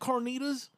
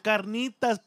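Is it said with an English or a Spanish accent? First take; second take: English; Spanish. First: It is said with an English-speaker's accent. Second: It is said with a Spanish-speaker's accent. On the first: The speaker calls it wrong. "Can I get some carnitas?" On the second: The speaker calls it right. "No, carnitas, pendejo. Say it right"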